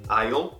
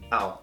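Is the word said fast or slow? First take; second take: slow; fast. First: The contraction is said slowly. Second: The contraction is said quickly. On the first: "Mais devagar" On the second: "mais rápido"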